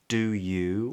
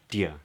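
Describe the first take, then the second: First: Both words are said fully and separately. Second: The two words merge into one quick syllable. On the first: "we don't get do you" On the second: "but just dia"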